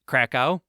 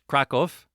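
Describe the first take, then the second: First: The name is said with an American English pronunciation. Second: The name is said with a Polish pronunciation. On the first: "in American English"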